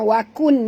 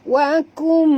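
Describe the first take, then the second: First: The ending is a clear n sound. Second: The ending merges into a nasal m. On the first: The speaker calls it wrong. "bukan wakun" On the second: The speaker calls it right. "masukkan bunyi nun ke dalam mim"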